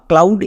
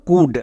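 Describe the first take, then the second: First: An ow vowel with the l sounded. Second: Short u vowel with a silent l. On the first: The speaker calls it wrong. "একে আমরা কেউ কাউড বা ক্লাউড এরকম উচ্চারণ করব না" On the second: The speaker calls it right. "তাহলে এর উচ্চারণ কি দাঁড়ালো? কুড।"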